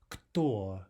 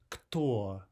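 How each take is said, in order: The two takes are said the same way.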